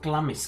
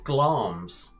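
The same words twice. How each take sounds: First: The name is said with two syllables. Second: The name is said with one syllable. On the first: The speaker calls it wrong. "is not Glamis" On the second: The speaker calls it right. "it's Glamis"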